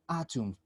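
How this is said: It is said with a British accent. "this pronunciation is British ... ellos dicen atom"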